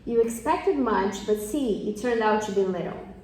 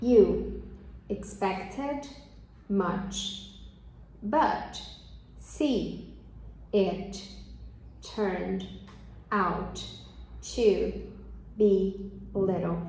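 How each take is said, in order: First: The sentence is spoken quickly and smoothly. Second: The sentence is spoken slowly and carefully. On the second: "só que devagar"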